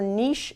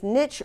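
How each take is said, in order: First: The word is said with a French sound. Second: The word is said with an English sound.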